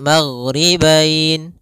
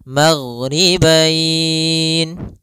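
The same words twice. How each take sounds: First: The long vowel is held for two counts. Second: The long vowel is held for four counts. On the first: "dua harokat" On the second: "empat harokat"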